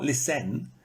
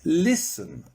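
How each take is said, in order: First: Lis-TEN, weight on the end; listen mis-stressed as lis-TEN; wrong stress on listen. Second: LIS-ten, punched at the start; listen, strong first beat and falling end; stress on first syllable of listen. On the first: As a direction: push the second syllable of listen. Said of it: "It's not listen". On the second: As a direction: hit LIS, let the rest fall. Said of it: "but it's here". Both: Shown as a demonstration.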